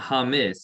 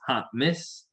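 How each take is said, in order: First: The word is said without a glottal catch. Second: The word is said with a glottal catch. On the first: The speaker calls it wrong. "it's not Hamis" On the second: The speaker calls it right. "Get that glottal M"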